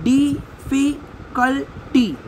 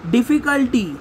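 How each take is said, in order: First: "डिफ़िकल्टी" slowly, in four separate beats; split into syllables. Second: Said in the usual way. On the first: Shown as a demonstration. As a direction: pause after each syllable of "डिफ़िकल्टी". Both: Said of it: "syllable के base पे".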